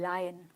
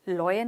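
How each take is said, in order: First: The first vowel is an open 'ah' sound. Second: The first vowel is a rounded 'aw' sound. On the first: The speaker calls it right. "आ की मात्रा य, लायन" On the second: The speaker calls it wrong. "बहुत लोग बोलते हैं इसे लॉयन, लॉयन नहीं"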